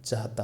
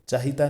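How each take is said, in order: First: No vowel is heard between h and t. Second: An extra i vowel is heard between h and t. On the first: The speaker calls it right. "होता है" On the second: The speaker calls it wrong. "नहीं"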